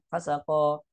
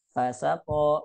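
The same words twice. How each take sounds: First: Fa sako squeezed into one short word; run together. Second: Fa set apart, then sako drawn out; separated words. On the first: Teacher showing what not to say, run together. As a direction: say "fa sako" with no gap after fa. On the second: Teacher showing the correct reading, separated words. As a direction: say "Fa sako" as two words, fa on its own. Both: Shown as a demonstration. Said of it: "bukan fa sako".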